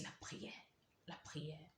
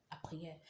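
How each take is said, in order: First: Whisper. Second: Said in the usual way. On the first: Retold or imitated. Whispered prayer remembered.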